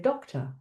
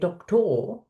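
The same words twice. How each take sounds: First: The last syllable has a weak schwa vowel. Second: The last syllable has a full, clear vowel. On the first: The speaker calls it right. "we say doctor. We have the schwa coming in" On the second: The speaker calls it wrong. "we don't say doctor"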